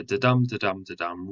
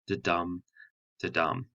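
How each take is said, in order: First: "da-dum, da-dum, da-dum" rattled off fast, light then strong each time; quick iambic rhythm. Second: "da-dum" with a soft first beat and a punched second beat; iambic da-dum. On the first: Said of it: "a da-dum, da-dum, da-dum rhythm". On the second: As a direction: tap out "da-dum" like a heartbeat, weak then strong. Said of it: "unstressed syllable followed by a stressed syllable". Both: Shown as a demonstration.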